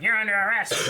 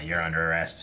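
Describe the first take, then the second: First: It is spoken with more attitude and expression. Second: It is spoken in a flat monotone. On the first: "they got a little more uh, attitude with them" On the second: "very like more monotone"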